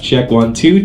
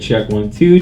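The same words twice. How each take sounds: First: The voice has boosted mids and more body. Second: The voice has cut mids and sounds hollow. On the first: "you almost hear some more body in the voice" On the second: "Now it sounds pretty hollow"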